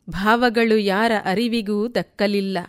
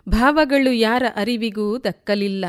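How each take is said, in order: Both takes have the same delivery.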